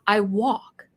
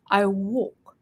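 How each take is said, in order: First: "walk" open and wide, American style; wide American vowel. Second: "walk" narrowed and rounded, like "woke"; narrow British vowel. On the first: Comparing accents for listeners, "walk" with a wide American vowel. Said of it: "I use the same tone too". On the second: Comparing accents for listeners, "walk" with a narrow British vowel. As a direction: close the mouth frame on "walk", British style. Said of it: "my mouth frame is, is narrow". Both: Shown as a demonstration.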